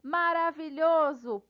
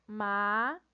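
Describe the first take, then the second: First: Said in the usual way. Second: "maravilhoso" in five isolated beats, ma, ra, vi, lho, zo; split into syllables. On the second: Shown as a demonstration. Teacher counting syllables, "maravilhoso" syllable by syllable. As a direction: pause after every syllable of "maravilhoso". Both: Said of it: "quatro ou mais sílabas".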